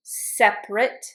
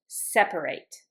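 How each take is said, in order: First: "Separate" said SEP-rit; two syllables in "Separate", no middle vowel; "Separate" ending on a short "rit"; A left out. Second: "separate" said SEP-uh-rate; low "separate" in three syllables; A pronounced. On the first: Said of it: "I don't pronounce the A". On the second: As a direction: sound the middle A of "separate", ending "rate". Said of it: "I pronounce it in the verb". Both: Shown as a demonstration.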